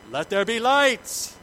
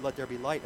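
First: Higher, louder and slow, "light" drawn out as a grand decree; dramatic scripture reading. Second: Said in the usual way. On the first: Acted. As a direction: proclaim God's words with weight. Reading God's words in Genesis.

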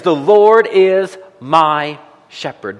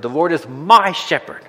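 First: "The Lord is my shepherd" read slowly with weight on "Lord"; slow, stressed reading. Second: "The Lord is my shepherd" with the weight moved to "my"; stress on my. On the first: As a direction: lean on "Lord" and let each word land slowly. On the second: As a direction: push the word "my" gently, at a normal pace. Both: Shown as a demonstration. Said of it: "What does it say? It says".

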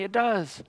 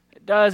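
First: Said in the usual way. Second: Does pushed louder; stress on does. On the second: Real, not acted. The preacher answers the excuse, pressing does louder. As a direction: It does, hit does with force.

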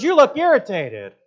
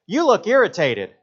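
First: Put-on much higher, louder, slow squeaky child; little girl voice. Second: High, slow, mock little girl. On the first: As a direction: play the blunt little girl even higher. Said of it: "She goes". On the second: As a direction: imitate a small girl's blunt remark. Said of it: "looks at me and goes".

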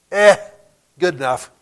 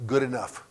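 First: A loud "Eh", then a careless verdict; dismissive shrug. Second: Said in the usual way. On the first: Acted. Professor mocks a phrase he hates, dismissive shrug. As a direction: shrug it off as not worth more effort. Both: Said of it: "I hate the phrase".

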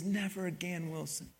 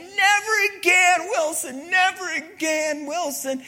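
First: Hushed, soft promise trailing away; tender promise. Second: Drawn-out, high-pitched yell. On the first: Castaway bringing his volleyball back, soft hushed promise. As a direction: say it softly, as a private vow. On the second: Castaway yelling for his lost volleyball, loud high yell. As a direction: yell it out full force, much higher and louder. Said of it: "And he's yelling". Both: Acted.

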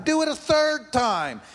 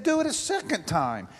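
First: Commanding. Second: Said in the usual way. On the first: A narrator's reading. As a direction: raise the order up, bold. Elijah orders the water poured.

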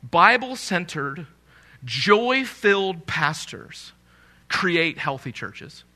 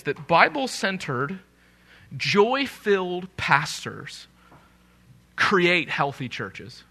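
First: Each phrase slowed and set apart by pauses; slow, emphatic repeat. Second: Each phrase set apart by a pause, slowed right down; slow and emphatic. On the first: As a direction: stretch "joy-filled" and lean into "create". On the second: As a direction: lean on "Bible-centered" and "joy-filled", pausing after each. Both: Shown as a demonstration. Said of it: "I want to say that one more time".

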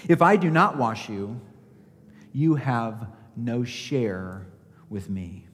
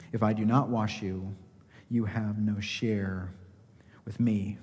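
First: Said in the usual way. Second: Hushed. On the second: Shown as a demonstration. Preacher quietly echoing Jesus' answer to Peter, fading to a whisper. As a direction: repeat it softer, fading to a whisper on "you have no share with me".

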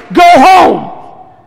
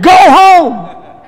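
First: Loud, high, angry bark of a doctor; mad doctor's shout. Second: High, loud, angry bark; angry doctor shout. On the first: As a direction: yell it like a baffled, angry doctor. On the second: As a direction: yell it like the furious doctor. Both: Retold or imitated. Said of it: "And that's the way he said it".

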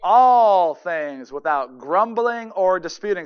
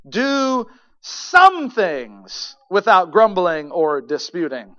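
First: "All" punched, slow and loud; stress on ALL. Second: "some" stressed, slow and loud; wrong word stressed. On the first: Preacher corrects the verse, stressing "All". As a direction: hit "All" hard and slowly. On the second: Preacher misreads the verse, stressing "some". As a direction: lean on "some" as a deliberate misquote. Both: Shown as a demonstration. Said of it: "Do how many things?".

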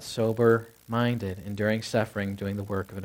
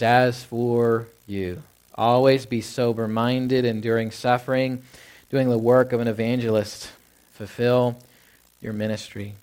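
First: Walk back through the verse, quieter and lower; quieter recap. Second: Each phrase drawn out slowly and deliberately; slow scripture reading. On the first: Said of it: "Well, always be what?". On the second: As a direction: read the verse slowly, letting each clause land. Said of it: "He says". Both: Shown as a demonstration.

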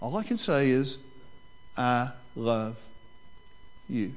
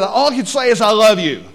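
First: Tender repeat. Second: Loud, high blurted vow; nervous blurt. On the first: Shown as a demonstration. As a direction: say it quietly, like a real vow. Repeating the groom's vow gently. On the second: Retold or imitated. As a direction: blurt it out like a panicked groom. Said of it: "he just blurted out".

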